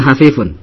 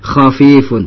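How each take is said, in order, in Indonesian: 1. Kata itu dimulai dengan bunyi h lembut. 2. Kata itu dimulai dengan bunyi kh kasar. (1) "bukan hafifun" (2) "Tapi khafifun"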